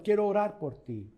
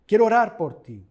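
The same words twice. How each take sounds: First: Said in the usual way. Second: A sudden louder, earnest offer to pray. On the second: Real, not acted. Pastor offering his congregation prayer, loud and earnest. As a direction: lift the voice on quiero.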